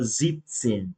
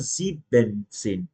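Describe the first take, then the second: First: The first part has its ending cut off. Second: The first part keeps its full ending. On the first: The speaker calls it right. "a gente corta o final dos números" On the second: The speaker calls it wrong. "A gente não fala"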